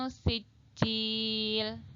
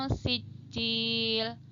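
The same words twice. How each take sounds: The two takes are said the same way.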